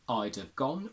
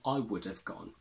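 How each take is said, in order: First: The word would is contracted to a d sound. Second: The word would is said in full. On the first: "would can stay would or simply d" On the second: "would can stay would"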